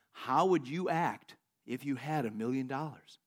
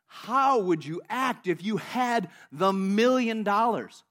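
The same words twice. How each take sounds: First: Slow, lower and measured voice of God; the Lord speaking. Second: Very slow, emphatic voice of God; God speaking. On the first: The Lord questions the praying man, slow low voice of God. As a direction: pose it slowly and gravely, low. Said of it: "And the Lord says to him". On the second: God presses the question on this guy, very slow and emphatic. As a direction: stretch each word out with firm weight. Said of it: "God says to this guy". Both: Retold or imitated.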